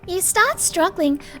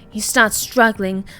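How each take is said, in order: First: It is said in a higher-pitched anime-girl voice. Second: It is said in a lower-pitched voice.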